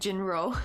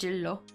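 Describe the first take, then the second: First: The middle consonants are an n then r. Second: The middle consonants are a long l sound. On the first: The speaker calls it wrong. "for years I was calling it Jinro" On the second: The speaker calls it right. "it's pronounced Jillo"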